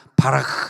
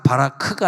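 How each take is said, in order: First: The final sound is a raspy, breathy ch. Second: The final sound is a hard, stopped k. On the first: The speaker calls it right. "크가 이제 독일어의 씨에이치 발음이니까" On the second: The speaker calls it wrong. "바라크가 아니라"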